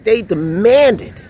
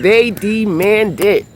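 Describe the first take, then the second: First: They deMANDed, slow and loud, landing hard on demanded; stress on demanded. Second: THEY punched loud, whole phrase slow; stress on they. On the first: Telling her viewers how the vendors pushed, stress on demanded. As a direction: drag out demanded to show how pushy they were. Retelling pushy street vendors. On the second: Repeating to viewers how pushy the vendors were, stress on they. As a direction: lean hard on They, then let demanded fall. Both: Real, not acted.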